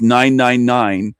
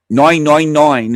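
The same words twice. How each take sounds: First: Said in the usual way. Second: Louder, put-on British accent; mock British accent. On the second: Shown as a demonstration. Host mimicking Great Britain's emergency number, mock British accent.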